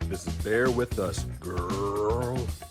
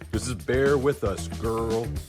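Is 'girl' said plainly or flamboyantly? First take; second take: flamboyantly; plainly. First: The word girl is said flamboyantly. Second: The word girl is said plainly.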